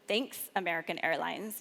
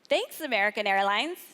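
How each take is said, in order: First: It sounds sarcastic and annoyed. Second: It sounds sincerely grateful.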